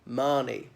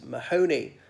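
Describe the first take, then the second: First: The H is silent in the name. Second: An H sound is pronounced in the name. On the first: The speaker calls it right. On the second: The speaker calls it wrong.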